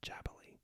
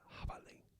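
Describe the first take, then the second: First: It starts with an English-style j sound. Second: It starts with a raspy h from the throat. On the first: The speaker calls it wrong. "So not jabali" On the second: The speaker calls it right. "J sounds actually more like an H, but it's pronounced at the back of the throat"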